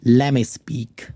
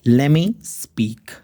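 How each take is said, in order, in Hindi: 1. 'let me' को मिलाकर एक शब्द बनाया जाता है, 'lemme'। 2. 'let me' को मिलाकर एक शब्द बनाया जाता है, 'lemme'।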